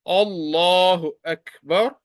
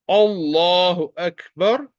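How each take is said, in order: No difference in how they are said.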